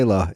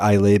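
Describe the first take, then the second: First: The name is said the local way. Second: The name is said an outsider's way. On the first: The speaker calls it right. "Isla, it's pronounced" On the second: The speaker calls it wrong. "I always pronounced it Islay before I went to the island and got um, told off by the locals"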